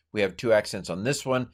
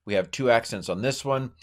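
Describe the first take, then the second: No difference in how they are said.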